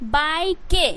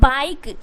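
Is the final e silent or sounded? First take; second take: sounded; silent. First: The final e is sounded as an extra syllable. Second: The final e is silent, one syllable. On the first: The speaker calls it wrong. "अगर आप इसका ई का उच्चारण कर देते हो" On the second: The speaker calls it right. "ई जो है ना वो साइलेंट है"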